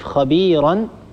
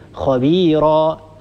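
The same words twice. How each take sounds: First: The word ends with an n sound. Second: The word ends with a long a vowel. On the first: The word is read on without stopping. "وبدل أن نقف خبيرا" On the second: The reader stops on the word. "نقف خبيرا"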